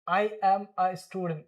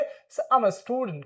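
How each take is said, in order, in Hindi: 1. 'I' और 'am' अलग-अलग शब्दों की तरह बोले जाते हैं। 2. 'I' और 'am' एक ही सिलेबल में मिल जाते हैं। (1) "गलत है भाई, आप ऐसे नहीं बोल सकते।" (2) "सिंपली आई एम को क्या प्रोनाउंस करेंगे? आम।"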